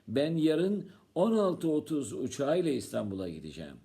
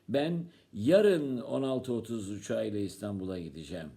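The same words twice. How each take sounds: First: The time '16:30' is stressed. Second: The word 'yarın' is stressed. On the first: The trip is at that particular time. "Sen saat kaçta gideceksin?" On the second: The trip happens tomorrow, not another day. "Sen ne gün gideceksin?"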